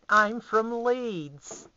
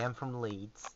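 First: Much higher, louder, very slow drawn-out mock voice; silly exaggerated announcement; mock Leeds voice. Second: Said in the usual way. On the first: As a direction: stretch it out in a hammed-up put-on voice. Repeats line in put-on voice.

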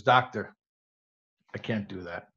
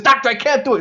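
First: Low, hushed patient's reply; downcast refusal. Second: High, loud pleading refusal; exasperated protest. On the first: Joke patient quietly refusing the doctor's advice, downcast. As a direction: say it softly, sinking lower at the end. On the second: Joke patient protesting to the insistent doctor, loudly exasperated. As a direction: cry it out as a desperate patient. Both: Acted.

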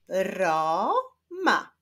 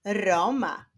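First: "Roma" slowly split into ro, ma; syllable by syllable. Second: Said in the usual way. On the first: Shown as a demonstration. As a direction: sound out "Roma" with a break between syllables. ("Roma" powoli, z podziałem na ro, ma) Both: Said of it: "składa się z dwóch sylab".

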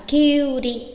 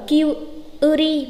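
First: "Kyuri" with one drawn-out yu; correct long vowel. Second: "Kyuri" broken up as kyu-u-ri; wrong split vowel. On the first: Teacher correcting learners, "Kyuri" with u held long. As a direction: hold the u in "Kyuri" unbroken. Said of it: "mà đọc là Kyuri". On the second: Teacher showing the mistake, "Kyuri" broken into kyu, u-ri. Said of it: "Không đọc là Kyuri mà đọc là". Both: Shown as a demonstration.

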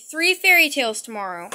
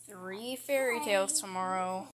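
First: Reciting promise. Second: Muttered promise. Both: Acted. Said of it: "keep saying it".

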